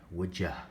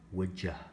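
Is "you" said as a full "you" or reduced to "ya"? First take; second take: reduced; reduced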